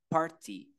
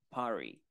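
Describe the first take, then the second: First: It is said with a British accent and clear t. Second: It is said with an American accent and soft t. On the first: "En inglés británico, party, T, sonaría tal cual así está" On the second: "En inglés americano, party o party"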